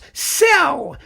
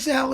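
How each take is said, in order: First: The name begins with a hissing s sound. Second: The name begins with a buzzing z sound. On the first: A commentator insisted this is the correct name. "it's Sell. You should pronounce it Sell" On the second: This is the way the speaker always heard it. "his name isn't Zell"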